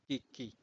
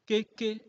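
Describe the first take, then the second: First: "Keke" dropped low, falling, the low tone; "Keke" with the plain low tone. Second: "Keke" on a high pitch, the high tone; "Keke" with the Nadia high tone. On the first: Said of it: "est opposé à". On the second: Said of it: "Ce qui veut dire que". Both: Shown as a demonstration.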